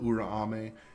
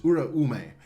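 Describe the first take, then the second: First: The name is said in a shortened form. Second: The name is said in its full form. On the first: The speaker calls it wrong. "I always say Urame just to make it short" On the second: The speaker calls it right. "No, it's Uraume"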